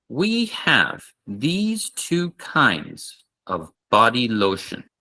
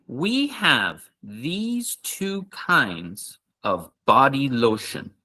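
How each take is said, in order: The two takes are said the same way.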